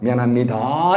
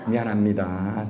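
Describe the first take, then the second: First: The voice rises at the end. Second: The voice falls at the end.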